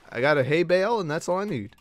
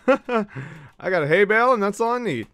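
First: Said in the usual way. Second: Laughing sing-song. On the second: Real, not acted. Gamer repeating his hay bale line to chat, laughing. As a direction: savour the line through a laugh.

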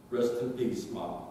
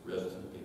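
First: Said in the usual way. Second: "Rest in peace" repeated much softer, trailing away; a final, much softer "Rest in peace" to Mom; soft farewell. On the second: Real, not acted. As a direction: let "Rest in peace" fade to a hush.

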